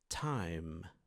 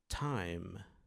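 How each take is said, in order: Both takes have the same delivery.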